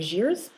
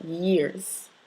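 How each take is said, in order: First: The word begins with a j sound. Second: The word begins with a y sound. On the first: The speaker calls it wrong. "you don't want to pronounce it j" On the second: The speaker calls it right. "You want to pronounce it y"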